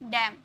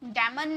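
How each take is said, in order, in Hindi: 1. शब्द m की आवाज़ पर खत्म होता है। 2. इसके अंत में एक अतिरिक्त n की आवाज़ जुड़ती है। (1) "एम तक ही लास्ट हो जाता है" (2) "डैमन नहीं"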